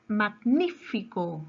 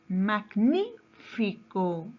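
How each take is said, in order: First: Said in the usual way. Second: Magnífico very slow, broken after a raised NÍ; stress on NÍ. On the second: Shown as a demonstration. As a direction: stretch mag-NÍ, pause, then fico. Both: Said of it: "Su mayor fuerza de voz está en la antepenúltima".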